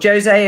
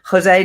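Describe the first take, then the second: First: The name is said with a Portuguese pronunciation. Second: The name is said with a Spanish pronunciation. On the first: The person is taken to be Portuguese. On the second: The person is taken to be Spanish-speaking.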